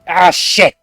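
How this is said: It sounds alarmed, like something serious happened.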